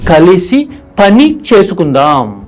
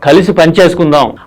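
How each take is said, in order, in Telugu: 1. పదాలు చిన్న విరామంతో విడిపోయి ఉన్నాయి. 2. పదాలు ఒకే ప్రవాహంలో కలిసిపోయి ఉన్నాయి. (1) "నా ఉద్దేశం ఇక్కడ" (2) "కలిపి మాట్లాడామనుకోండి ఫ్లోలో"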